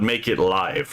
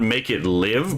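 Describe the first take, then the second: First: 'Live' has a long vowel, rhyming with five. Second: 'Live' has a short vowel, rhyming with give. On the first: Stream it as it happens. The speaker calls it right. "that was the intended pronunciation" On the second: Bring it to life. The speaker calls it wrong.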